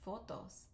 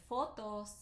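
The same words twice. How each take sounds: First: "fotos" said the Spanish way, soft and quiet; the Spanish "fotos", sounded out gently; Spanish pronunciation, softly. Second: "fotos" said the Spanish way with a plain F sound; Spanish pronunciation. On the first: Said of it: "F O T O S". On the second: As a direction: read "fotos" just as it is spelt, Spanish style. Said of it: "in Spanish, if you say fotos". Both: Shown as a demonstration.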